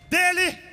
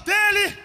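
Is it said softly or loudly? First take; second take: softly; loudly. First: It is said at normal loudness. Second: It is said loudly and with force.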